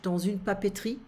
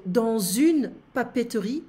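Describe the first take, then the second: First: Dans une papeterie run together quickly as one word; said fast. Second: Dans une papeterie said slowly and carefully; slow first take. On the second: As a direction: spell out dans une papeterie word by word, unhurried. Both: Shown as a demonstration. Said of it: "we need to say it fast in French".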